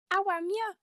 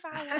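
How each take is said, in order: First: "How am ya?" in a high, loud Brummie accent; Birmingham accent. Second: Said in the usual way. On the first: Shown as a demonstration. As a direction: Brummie voice, pitched up like a question. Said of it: "can you both do the Birmingham accent". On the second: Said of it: "instead of".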